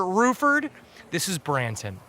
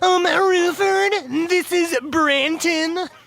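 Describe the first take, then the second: First: It is said in a normal voice. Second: It is said in a rude falsetto.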